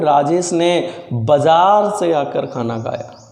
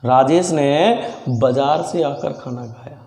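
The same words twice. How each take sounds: First: The word बाजार is stressed. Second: The word Rajesh is stressed. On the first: He came from the market and then ate. "जोर बाजार पे दे रहा हूं" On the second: Only this person ate, not the others present. "जोर दे रहा हूं राजेश पर"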